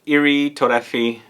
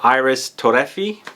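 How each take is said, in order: First: The name is said with a French accent. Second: The name is said with an English accent. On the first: "is how you say it, I think, in French, in the French accent" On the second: "That's how I guess it would be pronounced if you read it in English"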